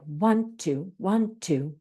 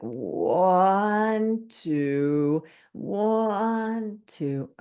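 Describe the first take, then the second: First: The counting is quick and even. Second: The counting is slowed down.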